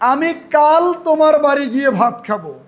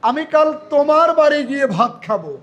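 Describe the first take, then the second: First: The stress is on the word কাল. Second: The stress is on the word তোমার. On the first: It will happen tomorrow, not another day. "আমি কিন্তু কাল শব্দের উপরে জোর দিয়েছি।" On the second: It will be at this listener's house, not another's. "তোমার শব্দটা হবে সবার চেয়ে জোরে"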